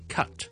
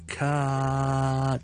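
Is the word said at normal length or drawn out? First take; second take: normal; drawn out. First: The word is said short, at normal speed. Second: The word is stretched out with a long vowel.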